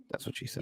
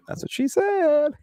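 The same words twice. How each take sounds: First: Very soft whispered innuendo; hushed, sneaky punchline; whispered aside. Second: High, stretched-out goofy delivery; silly high-pitched innuendo; jokey punchline. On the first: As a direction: slip the joke in under your breath. Sneaks in a dirty joke. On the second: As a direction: draw out the last word high. Repeats the dirty joke openly. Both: Pretend.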